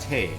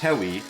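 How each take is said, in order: First: The name is said as one short syllable. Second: The name is said with a w sound, two syllables. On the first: The speaker calls it right. "it's actually just Te" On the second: The speaker calls it wrong. "it makes you s- say that it's Tewi"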